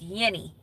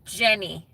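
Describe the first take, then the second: First: The name starts with a Y sound. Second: The name starts with an English J sound. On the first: This is the Spanish way of saying the name. "Because they don't pronounce the their J's" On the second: This is the English way of saying the name. "My American name is Jenny"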